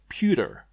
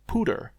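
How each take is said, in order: First: The first syllable has a y glide, 'pyoo'. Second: The first syllable has no y glide, 'poo'. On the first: The speaker calls it right. "like at the end of computer" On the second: The speaker calls it wrong. "instead of pooter"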